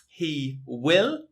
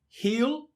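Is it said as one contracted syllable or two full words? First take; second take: two words; one syllable. First: Two separate full words are said. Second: The words merge into one contracted syllable.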